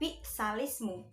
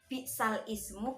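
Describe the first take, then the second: First: The glottal stop is dropped and its vowel linked back. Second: The glottal stop before 'ismu' is clearly pronounced. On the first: This is the form after the vowel is moved back. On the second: This is the original form before the change.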